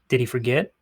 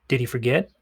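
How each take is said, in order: Both takes have the same delivery.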